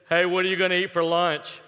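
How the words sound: It is spoken in a loud, full voice. "could hear you because it was loud"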